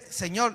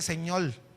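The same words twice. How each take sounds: First: The word is said with an R sound. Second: The R is replaced with an L sound. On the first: This is the ordinary way of saying it. "él no dice Señor" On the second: This is how he says it when speaking in tongues. "yo cuando hablo en lenguas no pronuncio la R"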